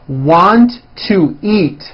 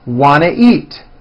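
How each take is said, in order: First: Each word is said fully and separately. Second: The words are squeezed into a reduced form.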